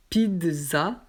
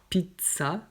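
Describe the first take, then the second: First: "pizza" said as "pidza"; "pizza" with a d before the z. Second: "pizza" said as "pitsa"; "pizza" with a t before an s sound. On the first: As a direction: voice the middle of "pizza" as dz. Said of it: "avec un D". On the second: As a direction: make the middle of "pizza" a crisp ts. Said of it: "avec un T". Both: Shown as a demonstration.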